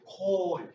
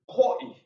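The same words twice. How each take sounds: First: The pitch stays high and level. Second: The voice is glottalized and catches in the throat. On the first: Uncle or aunt. "Our first tone is a high even tone" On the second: Wish. "Second tone is glottalized"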